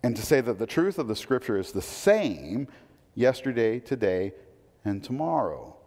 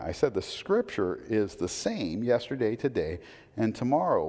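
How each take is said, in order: First: Yesterday, today, and tomorrow each set apart by pauses, falling on tomorrow; measured emphasis. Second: Same stressed on "same", tomorrow falling firmly; repeated for emphasis. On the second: Pastor repeating it so they listen, firm emphasis. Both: Shown as a demonstration. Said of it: "listen to that".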